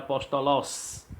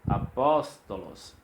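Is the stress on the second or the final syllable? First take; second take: final; second. First: The stress is on the final syllable. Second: The stress is on the second syllable. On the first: "Se não tivesse esse acento, seria apóstolos" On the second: "o pós está acentuado, ele é pronunciado mais forte"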